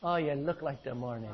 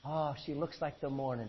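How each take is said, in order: First: Quiet mock Irish lilt on the line; a light teasing Irish brogue; Irish accent. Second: Soft, lilting Irish brogue, lightly done; a playful hint of an Irish lilt; Irish accent. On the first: Preacher joking to the congregation, a hint of Irish accent. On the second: Preacher jokingly reading scripture to congregation in an Irish accent. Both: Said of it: "Doesn't that sound like an Irish guy talking?".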